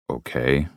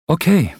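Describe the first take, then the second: First: Said in the usual way. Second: Viel höher und lauter, kurz bestätigend; Cameron, hohe Stimme. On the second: Acted. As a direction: ein helles, knappes Okay. Cameron answers. (Cameron sagt hoch und laut Okay)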